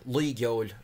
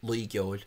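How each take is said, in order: First: Luig Yol spelled out slowly, each syllable drawn out; slow careful Irish pronunciation. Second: Luig Yol said with a clear hard G sound in Luig; the Munster way, Luig Yol with a G; pronounced with a G. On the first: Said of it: "and this one". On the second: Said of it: "have it with a, a G, Luig". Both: Shown as a demonstration.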